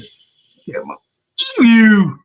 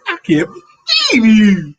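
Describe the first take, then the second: First: Whispered start, then a loud, high "believe you"; husband's catchphrase. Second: High, loud exasperated "I can't believe you"; a mock-indignant husband's stretched-out line; husband's catchphrase. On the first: Retold or imitated. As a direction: bursts out with mock disbelief. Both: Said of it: "That's how he said it".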